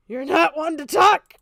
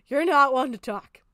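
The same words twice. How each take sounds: First: Louder, slower: You're not one to talk!; angry repeat. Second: Said in the usual way. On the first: Real, not acted. Streamer shouting back at a critic. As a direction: slam the word talk with a rising snap. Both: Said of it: "repeats it louder".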